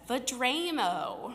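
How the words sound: It is said with a Midwestern American pronunciation. The speaker calls it wrong. "my Midwest accent would pronounce it as Vedramo"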